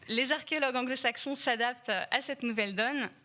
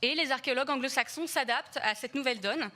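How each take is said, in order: First: It is said more slowly. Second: It is said fast.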